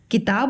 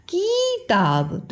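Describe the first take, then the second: First: किताब with a short, quick कि; correct short vowel. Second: किताब with the first syllable stretched into a long ई, slowly; wrong long vowel. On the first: Teacher giving children the right reading, short कि. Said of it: "किताब बोलते हैं". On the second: Teacher showing children the wrong reading, long की in किताब. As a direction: drag out the की in किताब to show the mistake. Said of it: "तो नहीं बोलते हैं". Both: Shown as a demonstration.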